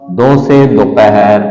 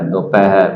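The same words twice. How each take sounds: First: Slow syllable-by-syllable. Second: Said in the usual way. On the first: Shown as a demonstration. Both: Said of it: "धीरे धीरे बोलिए".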